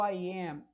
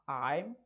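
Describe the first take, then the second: First: Two separate words are said in full. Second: The words are shortened into one syllable.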